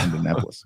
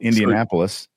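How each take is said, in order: First: It is said Evansville-style, vowels dropped. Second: It is said the standard way, vowels intact.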